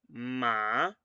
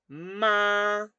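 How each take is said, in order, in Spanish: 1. El tono empieza en medio y sube. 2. El tono se mantiene alto y plano todo el tiempo. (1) "empieza más abajo, no empieza muy alto y después sube" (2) "tono uno es un tono alto y se per- que perdura"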